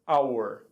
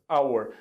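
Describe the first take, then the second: No difference in how they are said.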